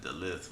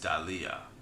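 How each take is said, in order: First: The word ends with a th sound. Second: The word ends with a vowel sound. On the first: The speaker calls it wrong. "you want to pronounce it Dalith, which I did earlier" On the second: The speaker calls it right. "but it's Dalia"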